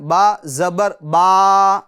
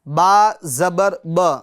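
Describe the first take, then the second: First: The final vowel is drawn out long. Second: The final vowel is short and not stretched. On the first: The speaker calls it wrong. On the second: The speaker calls it right.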